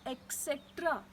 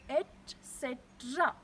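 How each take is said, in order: First: The first part is said with a k sound. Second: The first part is said with a t sound. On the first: The speaker calls it wrong. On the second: The speaker calls it right. "It doesn't have k in it. It has t"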